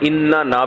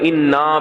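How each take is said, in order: First: The word is said in full with two n-syllables. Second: The word is shortened by dropping one n-syllable. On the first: "इन्ना ना भी पढ़ते हैं" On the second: "एक नून को गायब करके इन्ना भी पढ़ते हैं"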